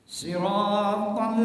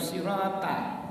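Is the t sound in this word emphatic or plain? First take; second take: emphatic; plain. First: The t sound is heavy and emphatic. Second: The t sound is light and plain. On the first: The speaker calls it right. "jadi ta" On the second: The speaker calls it wrong. "bukan sirata"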